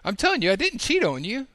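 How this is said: The voice rises at the end, like a question.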